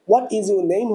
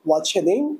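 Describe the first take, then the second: First: What and is are said as separate words. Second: What and is merge into one short syllable.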